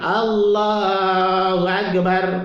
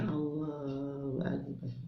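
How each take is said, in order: First: It is said fairly loudly, to be heard. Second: It is said softly, almost under the breath.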